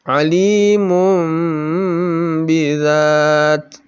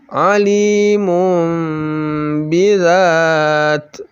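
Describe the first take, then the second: The two takes are said the same way.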